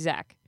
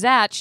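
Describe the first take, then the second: First: The name ends with a 'k' sound. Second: The name ends with a 'ch' sound. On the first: This is the new, corrected way the name is said. The speaker calls it right. "and now he's Zach" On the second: This is the old way the name was said. The speaker calls it wrong. "It was Zatch"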